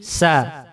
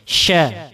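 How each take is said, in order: First: It starts with a thin s sound, no rush. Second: It starts with a strong, breathy sh sound. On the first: The speaker calls it wrong. "Kalau nggak ada suara tafasinya, maka dia jadi sa" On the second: The speaker calls it right. "Jadi deras suaranya"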